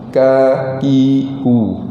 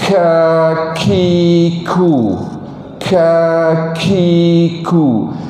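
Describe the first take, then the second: First: The k sounds are hard with no breath. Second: The k sounds carry a heavy rush of breath. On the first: "Kalau yang tidak ada langsung dia bunyi ... dia bunyi keras sikit" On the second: "Kalau yang melampau, yang berlebihan"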